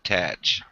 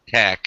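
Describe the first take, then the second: First: The syllable ends with a ch sound. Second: The syllable ends with a hard k sound. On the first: The speaker calls it wrong. "and not tatch" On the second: The speaker calls it right. "I think it's tack"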